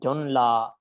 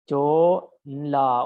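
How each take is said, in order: First: The first vowel is short before the consonant cluster. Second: The first vowel is long and open.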